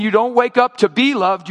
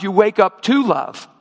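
First: "be loved" with the weight on "be"; stress on "be". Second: "to love" with the weight on "to"; stress on "to". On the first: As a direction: punch "be" in "to be loved". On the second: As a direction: punch "to" before "love". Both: Real, not acted. Contrasts being loved with loving.

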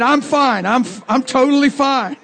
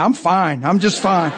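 First: High, defensive mock insistence; backing away nervously. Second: Said in the usual way. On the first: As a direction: protest too much while backing off, voice pitched up. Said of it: "he took three steps back and he said".

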